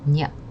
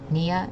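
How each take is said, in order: First: The ending is squeezed into one glided syllable. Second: The ending is said as two separate syllables. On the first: "if you say it a little quickly ... is going to sound like nya" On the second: "the last syllable, nia"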